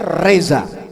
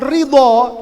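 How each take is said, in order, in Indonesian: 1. Konsonan tengah itu bunyi z. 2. Konsonan tengah itu bunyi d. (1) "jadinya reza" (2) "kalau mengucapkan dot itu diganti dengan za"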